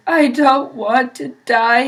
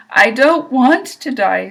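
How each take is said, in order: First: Moaned. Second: Screamed. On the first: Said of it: "he moaned". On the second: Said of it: "screamed Wilbur". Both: A narrator's reading.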